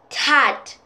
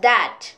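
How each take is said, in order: First: The word starts with a hard t sound. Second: The word starts with a soft th sound. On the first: The speaker calls it wrong. "You might think it's tat" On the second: The speaker calls it right. "but actually it's that"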